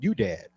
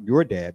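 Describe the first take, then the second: First: The first word has no r sound. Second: The first word ends with an r sound. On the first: "but you dad" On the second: "Not your dad"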